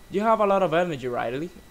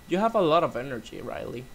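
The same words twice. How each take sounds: First: The name follows with no pause before it. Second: There is a short pause before the name. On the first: The speaker calls it wrong. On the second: The speaker calls it right.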